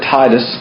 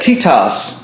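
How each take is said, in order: First: The name is said with its usual English pronunciation. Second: The name is said with its Greek pronunciation. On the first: "but we pronounce it Titus" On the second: "That's the way it sounds in Greek"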